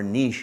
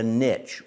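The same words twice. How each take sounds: First: It is said the non-North American way. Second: It is said the North American way.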